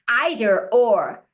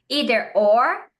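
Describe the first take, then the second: First: It is said with a British pronunciation. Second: It is said with an American pronunciation. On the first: "britânica"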